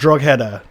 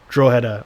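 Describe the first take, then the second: First: The name is read out letter by letter. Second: The name is said with its native pronunciation. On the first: The speaker calls it wrong. "if I was to phonetically pronounce it" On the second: The speaker calls it right. "Ian says draw header"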